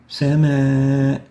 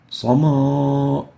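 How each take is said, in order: First: The vowel is light and thin. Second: The vowel is heavy and full-mouthed. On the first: The speaker calls it right. "Attenuated with no تفخيم" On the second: The speaker calls it wrong. "We don't say"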